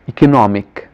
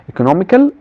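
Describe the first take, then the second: First: Economic said firmly, falling, as the right word; correct form. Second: Economical said with a questioning rise, marked as the wrong word; wrong form. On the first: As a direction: land economic with a settled fall. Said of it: "The adjective from economy is economic". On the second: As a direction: say economical as the rejected form, rising. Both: Shown as a demonstration.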